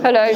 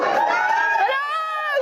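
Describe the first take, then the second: First: It is said flat and bored. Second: It is said thrilled and excited.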